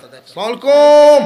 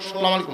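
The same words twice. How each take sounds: First: The greeting is said with a long drawn-out pull. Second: The greeting is said quickly and clipped short.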